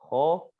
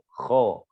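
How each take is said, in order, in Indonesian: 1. Bunyi kh memiliki sedikit atau tidak ada gesekan yang kasar. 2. Bunyi kh memiliki gesekan yang kasar. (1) "menghilangkan suara kotornya" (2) "Kasarnya. Suara yang kotornya"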